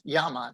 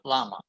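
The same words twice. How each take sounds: First: The word begins with a Y sound. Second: The word begins with an L sound. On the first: The speaker calls it right. "The double L is pronounced like a Y in English" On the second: The speaker calls it wrong. "not llama"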